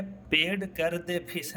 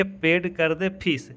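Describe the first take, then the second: First: "पेड कर दे फीस" read slowly, word by word, softer. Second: "पेड कर दे फीस" said as one connected phrase; run together as phrase. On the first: Teacher shows students how not to read "पेड कर दे फीस", word by word. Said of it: "ऐसे थोड़ी पढ़ेंगे". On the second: Teacher shows students how to read "पेड कर दे फीस", as one phrase. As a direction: link the words of "पेड कर दे फीस", still measured. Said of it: "कैसे पढ़ेंगे". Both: Shown as a demonstration.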